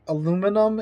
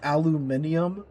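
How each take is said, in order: First: Said as four syllables, American style. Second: Said as five syllables, British style. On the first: "English in America" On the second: "English in Britain"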